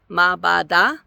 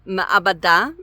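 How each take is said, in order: First: It is said with three syllables, skipping a vowel. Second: It is said with four syllables, with an 'ah' added. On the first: The speaker calls it wrong. "ayin is silent and schwa is silent. And so is this like ma'bada? But it's not" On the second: The speaker calls it right. "ma'abada is basically how I always say it"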